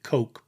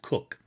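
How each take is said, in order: First: The vowel is long, rhyming with 'joke'. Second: The vowel is short, rhyming with 'book'. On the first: This is the usual modern reading of the spelling. "normally we would pronounce it Coke" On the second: This is how the family name was actually said. "but it was pronounced Cook"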